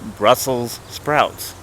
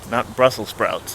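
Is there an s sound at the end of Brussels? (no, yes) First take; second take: yes; no. First: Brussels is said with a final s sound. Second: Brussel is said without a final s sound. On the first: The speaker calls it right. "Like it comes from Brussels" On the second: The speaker calls it wrong.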